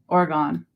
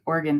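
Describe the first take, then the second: First: The word is said slowly, syllable by syllable. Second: The word is said quickly and run together. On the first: This is how people say it where the speaker grew up. The speaker calls it wrong. "I always say it wrong. I grew up in Vermont, so we always called it" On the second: This is how the name is really said. The speaker calls it right. "but it's really Oregon. You gotta say it fast"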